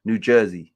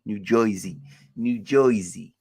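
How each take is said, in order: First: Said in the usual way. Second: Put-on "Jersey" said as "Joisey" in New York accent. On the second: Streamer playing with where the teams play, mock New York accent.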